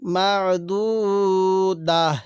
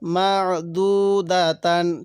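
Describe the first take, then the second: First: The word ends with a short -ah sound. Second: The word ends with a full -tan sound. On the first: The reader stops at this word. "যদি আমি এখন ওয়াকফ করি তাহলে কীভাবে পড়ব?" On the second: The reading continues without stopping. "দা তা দুই জবর তান"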